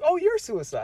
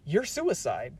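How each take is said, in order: First: It sounds nice and friendly. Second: It sounds harsh and aggressive.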